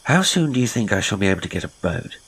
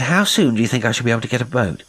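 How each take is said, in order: First: Said in the usual way. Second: Repeated louder, faster and higher, pressing for an answer; insistent repeat. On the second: Acted. Henty repeating himself to his silent host, louder and impatient. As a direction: push the question again, impatient and loud.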